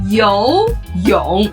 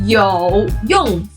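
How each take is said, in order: First: It is said with the tones meaning swimming. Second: It is said with the tones meaning useful. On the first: The word means swimming. "游泳 for swimming" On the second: The word means useful. "有用 for useful"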